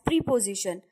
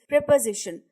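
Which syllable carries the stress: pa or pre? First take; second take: pre; pa. First: The stress falls on the syllable pre. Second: The stress falls on the syllable pa. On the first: The speaker calls it wrong. "pronounced incorrectly as preposition" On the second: The speaker calls it right. "The stress is on pa and not on pre"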